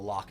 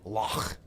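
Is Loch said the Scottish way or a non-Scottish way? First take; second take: non-Scottish; Scottish. First: Loch is said in a non-Scottish way. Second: Loch is said in a Scottish way. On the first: The speaker calls it wrong. "I'm not saying it right" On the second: The speaker calls it right. "in Scotland you gotta say Loch"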